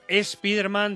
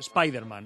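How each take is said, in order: First: The word begins with an added e sound. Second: The word begins directly with s, English style.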